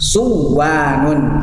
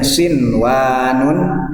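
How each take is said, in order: First: The n sound is merged into the waw. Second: The n sound is clearly pronounced before waw. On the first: The speaker calls it wrong. "kalau kita idghamkan nun dan waw" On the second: The speaker calls it right. "sinwan aja dibacanya sinwanun gitu"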